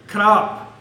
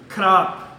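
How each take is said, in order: Both takes have the same delivery.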